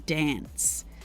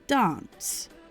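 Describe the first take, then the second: First: It is said in a New South Wales accent. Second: It is said in a South Australian accent. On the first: "in a lot of parts parts of New South Wales and things like that, they'll say dance" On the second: "a lot of South Australians say something like dance"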